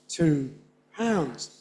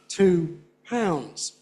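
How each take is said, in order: Both takes have the same delivery.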